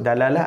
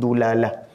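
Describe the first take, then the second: First: The first syllable has the vowel a. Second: The first syllable has the vowel u. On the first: "Ada boleh sebut dalalah" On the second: "ataupun dulalah"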